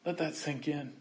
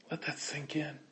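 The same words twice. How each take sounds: First: Soft, low and spoken; quiet spoken repeat. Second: Breathy whisper, much softer; hushed whisper to the congregation. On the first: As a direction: say it quietly with full voice. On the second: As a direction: lean in and whisper it. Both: Real, not acted.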